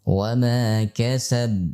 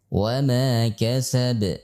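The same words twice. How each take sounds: First: The final b is stopped flat without bounce. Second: The final b is released with a bouncing echo. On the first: The speaker calls it wrong. "Tidak boleh dibaca misalkan dalam keadaan sukun" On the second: The speaker calls it right. "harus ada pantulan"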